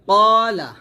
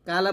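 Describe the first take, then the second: First: It starts with a deep, heavy back 'q' sound. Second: It starts with a light, plain 'k' sound. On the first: The speaker calls it right. "কফ বলবেন মোটা করে" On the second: The speaker calls it wrong. "কালা বলবেন না"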